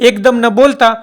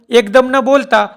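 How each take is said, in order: The two takes are said the same way.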